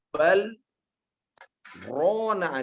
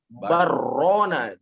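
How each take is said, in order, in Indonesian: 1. Bunyi l tetap terpisah sebelum r. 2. Bunyi l menyatu menjadi bunyi r yang dobel. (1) "Kalau dibuat bal rona ini sudah memutus ya" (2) "maka menjadi barrona, jadi tasdid jadi ronya"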